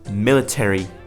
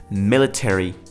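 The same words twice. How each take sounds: First: It is said in an American accent. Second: The same.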